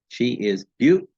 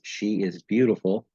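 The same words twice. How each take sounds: First: Strong emphasis lands on 'beau' in beautiful. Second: Pitch starts high on 'she' and falls steadily. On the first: It highlights her beauty as an exclamation. "the stress will fall on the syllable beaut" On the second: It is a plain statement. "your voice starts high on the word she, but then descends or goes down steadily"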